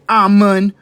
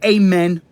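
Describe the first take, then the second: First: It starts with a plain 'ah' and ends in 'oon'. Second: It starts with a plain 'ah' and ends in 'en'. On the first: "Don't say Amun" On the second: "Don't say Amen"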